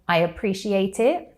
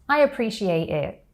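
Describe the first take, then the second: First: The T sounds are fully released and clear. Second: The T sounds are replaced by glottal stops. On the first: "with a true T" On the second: "with a glottal T"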